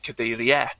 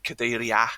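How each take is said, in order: First: The ending is said in the northeast way. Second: The ending is said in the northwest way. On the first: "northeast and parts of the southwest, then they'd say" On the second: "in sort of the northwest and parts of the southeast, you'd say"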